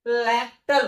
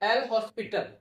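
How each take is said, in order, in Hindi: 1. इस नाम को 'lopital' कहा जाता है। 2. इस नाम को 'el hospital' कहा जाता है। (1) "इस रूल का जो एक्चुअल नाम है ना, लैक्टल रूल है" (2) "ये एल हॉस्पिटल तो हम लोग थोड़ा सा सुलभता के लिए बोलते हैं"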